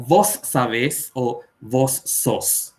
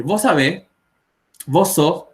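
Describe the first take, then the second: First: Vos sabés with a long hissed s, slowed; full s. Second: Vos sabés with the final s barely said; dropped s. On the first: Teacher contrasts a clearly pronounced s. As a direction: stretch the s in vos. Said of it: "y no como". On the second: Teacher shows Paraguayans dropping final s. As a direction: swallow the s in vos. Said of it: "van a escuchar a los paraguayos decir". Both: Shown as a demonstration.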